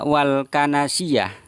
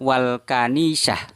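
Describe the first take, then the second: First: The word is said as ka-na-si-yah. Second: The word is said as ka-ni-sah. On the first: The speaker calls it wrong. "beliau Gus Miftah membaca wal kanasiyah" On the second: The speaker calls it right. "yang benar itu adalah wal kanisah"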